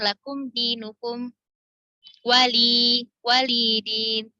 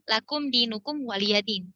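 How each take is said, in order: First: The ya is silent before din. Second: The ya carries a vowel before din. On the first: This is the Shu'bah reading. "Kalau di riwayat Syu'bah itu bacanya ... Jadi iya-nya di disukunkan" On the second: This is the Hafs reading. "kalau misalnya di riwayat Hafs"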